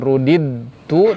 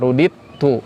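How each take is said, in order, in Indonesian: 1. Bunyi d yang terpisah terdengar sebelum t. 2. Bunyi d dihilangkan dan menyatu ke dalam t. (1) "Bukan rudid tu" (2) "tapi rudit tu langsung keta"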